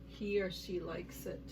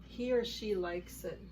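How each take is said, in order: Both takes have the same delivery.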